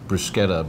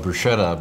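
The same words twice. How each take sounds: First: It is said the original Italian way. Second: It is said the common English way. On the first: The speaker calls it right. "It's actually spelled and should be pronounced bruschetta" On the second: The speaker calls it wrong. "we all call it bruschetta"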